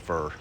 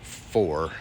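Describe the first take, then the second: First: It is said as Southern 'fur'. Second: It is said with a standard 'for' vowel.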